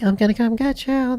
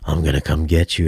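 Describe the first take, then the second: First: The voice is thin and small. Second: The voice is deep and full. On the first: The sound comes from the small surround speakers. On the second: The sound comes from the big front speakers.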